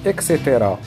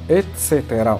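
First: The word begins with an eks sound. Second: The word begins with an ets sound. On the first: The speaker calls it wrong. "وهذا خطأ" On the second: The speaker calls it right. "والصواب هو أن نقول"

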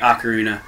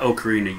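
First: The first syllable sounds like 'ock'. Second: The first syllable sounds like 'oak'. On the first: The speaker calls it right. "I sang ocarina" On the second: The speaker calls it wrong. "not ocarina, you dumb bastards"

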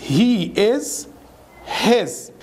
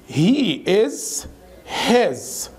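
The two takes are said the same way.

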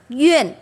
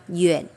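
First: The pitch falls sharply from high to low. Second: The pitch dips low and then rises. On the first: "Thanh tư đọc Duyên" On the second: "thêm dấu thanh ba"

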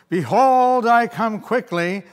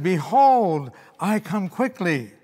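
First: It is said loudly, with great force. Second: It is said calmly, at normal strength.

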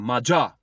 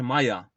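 First: The name is pronounced the English way. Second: The name is read as spelled, Polish style. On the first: This is how English commentators say it. The speaker calls it right. "Anglicy mówią Maja" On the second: This is just how the name is written. The speaker calls it wrong. "pisze się Maja"

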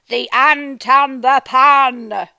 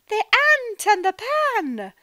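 First: It is said in a dramatic, angry voice. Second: It is said in a happy voice.

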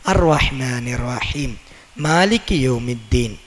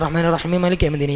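First: There is a pause after raheem. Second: It runs on without a pause after raheem.

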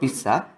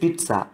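First: The middle is said without a t sound. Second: The middle is said with a t sound. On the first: The speaker calls it wrong. "It's not pizza" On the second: The speaker calls it right. "t පුතේ ලියන්න නැතුණාට t sound එනවා"

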